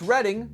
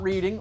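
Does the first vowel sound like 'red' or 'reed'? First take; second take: red; reed. First: The first vowel sounds like the word 'red'. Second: The first vowel sounds like the word 'reed'. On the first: It names the Pennsylvania town. The speaker calls it right. "that's Reading" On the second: It is the ordinary word for reading books. The speaker calls it wrong. "not reading"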